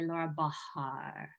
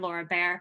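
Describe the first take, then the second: First: The surname has a long ah vowel. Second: The surname sounds like the word bear. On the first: "if you really want to pronounce that ah in the middle" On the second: "So bear is kind of correct too, if you say Laura Bahr"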